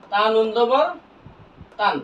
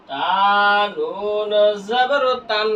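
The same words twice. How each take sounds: First: Said in the usual way. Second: Very slow, with নুন held long; slow model spelling for learners to follow; drawn-out spelling recitation. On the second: Shown as a demonstration. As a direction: stretch each letter name into the next. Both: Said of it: "বানান করলাম".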